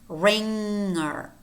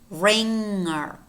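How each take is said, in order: Both takes have the same delivery.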